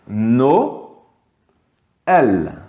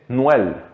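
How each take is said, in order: First: The vowels are split into two syllables. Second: The vowels merge into a single syllable. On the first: The speaker calls it right. "là on va dire no, elle" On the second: The speaker calls it wrong. "S'il n'y avait pas le e tréma, on dirait Noël"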